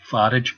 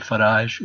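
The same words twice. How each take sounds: First: The name is pronounced in an English way. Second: The name is pronounced in a French way. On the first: The speaker calls it right. "It should definitely be Farage" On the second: The speaker calls it wrong. "he shouldn't be pronouncing his name as if it were French. So it shouldn't be Farage"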